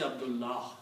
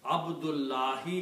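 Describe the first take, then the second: First: The word ends on the consonant without a vowel. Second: The word ends with a final short i vowel. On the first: This is the form used when pausing or stopping. "When we stop, we say Abdullah" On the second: This is the full form used in running speech. "Abdullahi is the real word"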